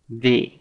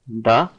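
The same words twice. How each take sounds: First: It is said as the form used before vowels. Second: It is said as the form used before consonants. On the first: The next word begins with a vowel sound. "the before a vowel phoneme" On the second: The next word begins with a consonant sound. "pronounced the before a consonant phoneme"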